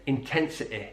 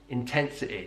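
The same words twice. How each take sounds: First: The final vowel is a short, lax i. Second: The final vowel is a short, lax i.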